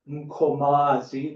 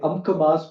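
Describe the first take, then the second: First: The name is said the isiZulu way. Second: The name is said in a fully English way. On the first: This is the original isiZulu form. The speaker calls it right. "the proper Mkomazi" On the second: This is the everyday local form. The speaker calls it wrong. "we say Amkamas"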